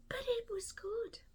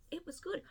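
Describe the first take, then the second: First: "but it was good" breathed out in a whisper; whispered aside. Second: Said in the usual way. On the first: Real, not acted. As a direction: confide it under your breath. Whispered verdict, then repeated.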